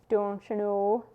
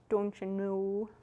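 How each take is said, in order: First: It is said plainly with a short O. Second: It is said in an accent, O drawn out.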